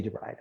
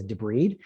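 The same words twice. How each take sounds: First: DEBRIDE said with a long i, as in bride; "debride" ending in an EYED sound; pronounced "de-BRIDE". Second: DEBRIDE said as de-BREED, with a long ee; "Debride" ending in an EED sound; pronounced "debreed". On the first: Shown as a demonstration. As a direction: rhyme the end of "debride" with "ride". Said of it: "It should be debride". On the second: Retold or imitated. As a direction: rhyme the end of "Debride" with "need". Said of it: "How do you say it?".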